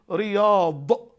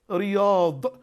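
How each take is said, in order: Both takes have the same delivery.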